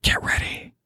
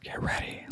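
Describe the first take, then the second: First: Soft breathy whisper; hushed whisper. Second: Barely audible whisper; faint hushed whisper; soft whisper. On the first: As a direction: whisper it like a secret. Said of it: "I just hear an audible whisper". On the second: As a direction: breathe it almost silently. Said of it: "I just hear an audible whisper, real soft". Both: Retold or imitated.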